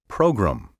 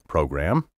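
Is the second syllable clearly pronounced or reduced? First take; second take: reduced; clear. First: The second syllable is slurred and reduced. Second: The second syllable is said fully and clearly. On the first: The speaker calls it wrong. "slur the gram and say program" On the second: The speaker calls it right. "have you noticed how I've been pronouncing the word program?"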